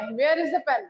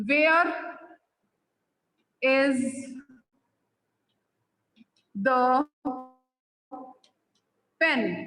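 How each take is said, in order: First: Said in the usual way. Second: Where, is, the, pen spaced out with long pauses; slow dictation. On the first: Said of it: "मैंने आपसे पूछा". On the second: Shown as a demonstration. Teacher dictating an example question to students, word by word. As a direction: drop each word separately for note-taking. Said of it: "अगर suppose मैं बोलती हूँ".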